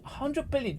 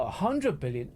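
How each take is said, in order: First: Hundred jumps much higher, said in disbelief; a hundred billion with hundred pitched high and stressed. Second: Said in the usual way. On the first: Shown as a demonstration. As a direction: hit hundred way up high in outrage. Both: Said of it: "Do you know what a hundred billion is?".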